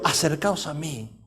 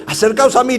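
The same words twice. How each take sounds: First: Low, slow, hushed invitation; softly said. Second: Projected, declaiming call; proclaimed aloud. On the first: Elijah calling all the people closer, softly. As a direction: drop right down and draw it out gently. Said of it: "Se lo dijo despacito". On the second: Elijah summoning all the people, proclaimed aloud. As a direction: call it out firmly to a crowd. Same words proclaimed, contrast to soft take. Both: Acted.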